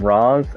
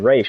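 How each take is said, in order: First: The name ends with a z sound. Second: The name ends with an sh sound. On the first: This is how one show says it. The speaker calls it wrong. "in Arrow they call it they call him Raz" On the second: This is the intended pronunciation. The speaker calls it right. "it's supposed to be Raish"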